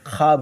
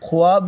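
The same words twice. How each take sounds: First: No w sound is heard after the kh. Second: A w sound is heard after the kh. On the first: The speaker calls it right. "बल्कि ख्वाब होता है" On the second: The speaker calls it wrong. "ख्वाब नहीं होता"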